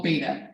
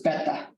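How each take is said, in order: First: "Beta" with a long a, BAY-tah; American pronunciation. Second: "Beta" with a short e, BEH-tah; Greek pronunciation. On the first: Teacher recalling the VCR name, American pronunciation. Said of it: "it was called Beta". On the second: Teacher correcting the VCR name, Greek pronunciation. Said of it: "But it's Beta". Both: Shown as a demonstration.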